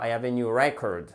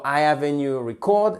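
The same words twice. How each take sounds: First: "record" said REC-ord, falling after the first syllable; stress on first syllable. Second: "record" said re-CORD, weight on the second syllable; wrong syllable stressed. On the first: Teacher corrects the sentence, "record" stressed on first syllable. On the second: Teacher shows what doesn't work, "record" stressed on second syllable. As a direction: push the end of "record". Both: Shown as a demonstration. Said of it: "ça ne marche pas".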